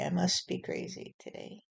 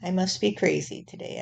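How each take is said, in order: First: The line again as a breathy whisper; whispered echo. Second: Said in the usual way. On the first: Pretend. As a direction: let it fade into a whisper.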